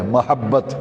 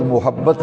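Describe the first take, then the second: First: Careful "ma" opening in محبت; correct vowel. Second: First syllable "mu" in محبت; wrong vowel. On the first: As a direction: say محبت as "mahabbat". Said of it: "میم پہ زبر ہے". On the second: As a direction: say محبت as "muhabbat". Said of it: "لفظ محبت نہیں ہے". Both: Shown as a demonstration.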